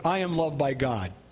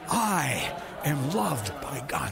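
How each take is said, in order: First: It is said plainly, without much emotion. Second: It is said with strong emotion and energy.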